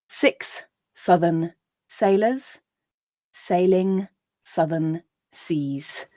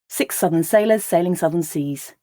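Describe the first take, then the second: First: The sentence is read slowly. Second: The sentence is read at a natural pace. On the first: "I'll read it once slowly" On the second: "then I'll read it at a more natural pace just once"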